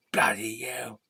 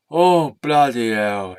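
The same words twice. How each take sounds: First: Whispered. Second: Said in the usual way. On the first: Acted. Puppet swears under breath.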